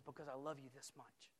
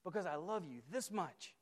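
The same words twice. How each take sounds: First: Jesus speaking tenderly. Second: Said in the usual way. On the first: Acted. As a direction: hush it, as a gentle assurance. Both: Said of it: "And he says".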